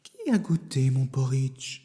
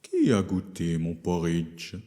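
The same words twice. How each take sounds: First: It is said in a soft Mama Bear voice. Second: It is said in a deep Papa Bear voice.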